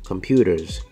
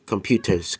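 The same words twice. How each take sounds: First: The middle t sounds like a soft d. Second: The middle t is a clear t sound.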